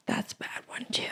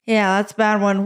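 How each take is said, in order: First: Whispered through cramp pain. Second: Said in the usual way. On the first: Real, not acted. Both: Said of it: "my foot is cramping".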